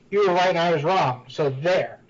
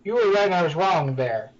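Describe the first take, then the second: First: There is a pause before so there. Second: It runs on with no pause before there.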